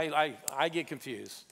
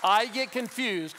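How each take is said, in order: First: Said in the usual way. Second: Slow, loud, punched I get confused; first take, louder and slower; emphatic declaration. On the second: Shown as a demonstration. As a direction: stress I hard, drawn out. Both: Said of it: "do it one more time".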